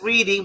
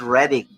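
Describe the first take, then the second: First: It is said like the everyday word 'reading'. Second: It is said with a short vowel, like 'redding'. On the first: The speaker calls it wrong. "it's spelled as reading" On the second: The speaker calls it right. "but it's pronounced here as Reading"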